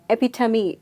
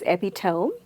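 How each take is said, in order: First: The word ends with a sound like 'tummy'. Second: The word does not end like 'tummy'. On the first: The speaker calls it right. "Epitome is the right pronunciation" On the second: The speaker calls it wrong. "most of us believe that it's epitome"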